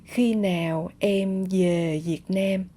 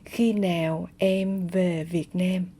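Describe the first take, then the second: First: Về and Việt begin with a y sound. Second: Về and Việt begin with a v sound.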